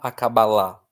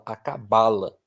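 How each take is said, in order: First: The stress falls on the final syllable. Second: The stress falls on the second-to-last syllable. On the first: The speaker calls it wrong. "você não fala acabalá" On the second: The speaker calls it right. "O acento vem antes"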